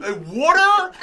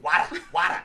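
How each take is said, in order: First: "water?" much higher and louder, puzzled; finally getting it, "water?"; incredulous rising "water?"; surprised "water". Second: "Wada, wada" with no r and a flapped t, louder; mock Staten Island "wada, wada". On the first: Retold or imitated. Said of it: "I was like". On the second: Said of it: "And she said".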